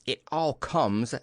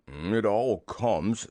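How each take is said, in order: First: Slow, lightly stern telling-off; measured storybook reproach. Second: Slow, mildly cross grumble; grumpy storybook bear, slow and weighted. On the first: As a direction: lay it down firmly and slowly. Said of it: "said Rabbit sternly". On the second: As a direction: drag the words out crossly. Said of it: "said Pooh crossly". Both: A narrator's reading.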